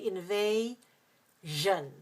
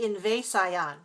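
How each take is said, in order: First: Invasion drawn out slowly as in-vay-zhun; correct zh pronunciation. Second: Invasion as in-vay-sigh-on; wrong spelling pronunciation. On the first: Teacher showing what we say, invasion slowly with zhun ending. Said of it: "We say invasion". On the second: Teacher showing what we don't say, invasion ending in sigh-on. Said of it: "We don't say invasion". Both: Shown as a demonstration.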